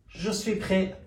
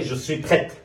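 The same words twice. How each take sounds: First: "prêt" ending on an open vowel, no t; masculine prêt, silent t. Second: "prête" closed with an audible final t; feminine prête, sounded t. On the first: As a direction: say "prêt" as "preh", final t silent. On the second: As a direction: say "prête" as "pret", t pronounced. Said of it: "اگر مؤنث باشه". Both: Shown as a demonstration.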